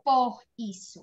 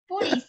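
First: The two words are said separately, unlinked. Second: The two words are linked into one unit. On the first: "Você não falou por isso" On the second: "Foi um linking sound"

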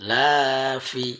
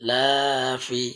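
No difference in how they are said.

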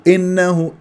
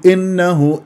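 First: The first vowel is clipped very short. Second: The first vowel is clipped very short.

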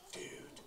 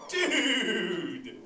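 First: The word sounds let down and disappointed. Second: The word sounds excited and enthusiastic. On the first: Something is bumming you out. "if something's like totally bumming you out, you say it like this" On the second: Something is totally awesome. "if something's totally awesome, you say it like this"

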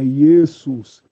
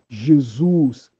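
First: The name begins with a Y sound. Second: The name begins with a J sound. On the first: The speaker calls it right. "é Jesus" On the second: The speaker calls it wrong. "Não existe Jesus"

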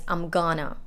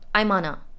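First: The g sound is clearly kept. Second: The g sound is dropped, said quickly. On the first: "which can be also pronounced as I'm gonna" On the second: "It's said quickly and it's unstressed"

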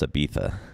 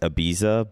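First: The name is said with a Spanish pronunciation. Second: The name is said with an English pronunciation. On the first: "but it's pronounced Ibiza" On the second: "It's Ibiza"

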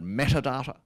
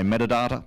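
First: Both T sounds are pronounced crisply and fully. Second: The T sounds are softened, not fully pronounced. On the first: Every letter in the word is pronounced. "it's got two T's in it" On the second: This is how most Australians say it. "Most Australians say metadata"

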